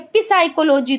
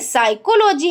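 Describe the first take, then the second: First: The word begins with a p sound. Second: The word begins with an s sound. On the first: The speaker calls it wrong. "पी साइकोलॉजी तो पढ़ते नहीं है" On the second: The speaker calls it right. "पी साइकोलॉजी तो पढ़ते नहीं है"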